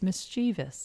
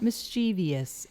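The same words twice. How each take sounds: First: No extra 'ee' sound comes before the ending. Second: An extra 'ee' sound comes before the ending. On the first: The speaker calls it right. "It's mischievous" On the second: The speaker calls it wrong. "tendency to want to put that extra e sound in it. So it's not mischievous"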